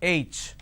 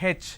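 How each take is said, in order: First: The letter is said the standard way. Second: The letter is said the South Indian way. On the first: The speaker calls it right. "It's not H, it's H" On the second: The speaker calls it wrong. "in southern part of India, everybody pronounces this letter as H. They say H"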